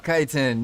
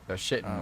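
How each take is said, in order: First: The word sounds like 'kiting'. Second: The word sounds like 'shitting'. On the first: The speaker calls it right. "that's it. Yeah, that sounds better" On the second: The speaker calls it wrong. "I don't know how to say that without sounding like I'm saying shitting"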